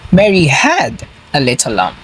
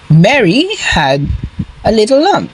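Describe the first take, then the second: First: The stress falls on the word had. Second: The stress falls on the word Mary. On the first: It was owned once but no longer. "She had it once, but she does not have it now" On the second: It was this person, not another, who had it. "not Tom. Mary had the lamb"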